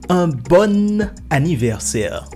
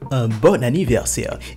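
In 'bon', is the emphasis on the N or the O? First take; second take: N; O. First: The emphasis falls on the N of bon. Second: The emphasis falls on the O of bon. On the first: The speaker calls it wrong. "il ne faut jamais dire" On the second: The speaker calls it right. "on met l'accent sur le O, mais pas sur le N"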